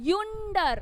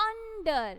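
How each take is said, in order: First: Yonder with a y-sound glided onto the start; wrong yonder. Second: Under with a short uh sound at the start; Under, opening on a plain short uh; under said right. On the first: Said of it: "We are not pronouncing U". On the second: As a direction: say Under as uh-nder, not yonder. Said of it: "We are not pronouncing U, yonder". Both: Shown as a demonstration.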